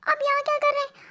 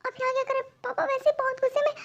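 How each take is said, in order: First: Much higher, startled squeak of a question. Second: Much higher and softer, a nervous hushed question; hushed panic. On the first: Daughter startled to find her secret love in her room, high surprised cry. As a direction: blurt it out in shock. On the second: Daughter fears father will catch them, higher hushed panicky question. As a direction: ask again, scared someone will hear. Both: Acted.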